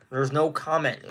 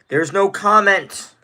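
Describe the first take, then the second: First: Said in the usual way. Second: "There's no comment" drawn out slowly and louder; slow and emphatic. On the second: Acted. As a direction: spell out "There's no comment" word by word. Streamer dodging a question.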